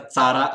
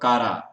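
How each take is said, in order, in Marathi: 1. शब्द 'ch' आवाजाने सुरू होतो. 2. शब्द 'k' आवाजाने सुरू होतो. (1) "याचा चारा असा पण उच्चार करतात" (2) "एक्झाम्पल कारा"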